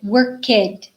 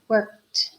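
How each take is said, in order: First: The ending is an extra syllable, like kid. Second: The ending is a single soft T sound. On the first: The speaker calls it wrong. "They pronounce it work kid" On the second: The speaker calls it right. "it sounds like a really soft T"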